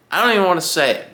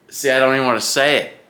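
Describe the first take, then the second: First: Quick high-pitched burst of alarm; higher, faster exclaim. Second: Said in the usual way. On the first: Real, not acted. Cyclist on a ride, superstitious about flats, blurting it out fast and high.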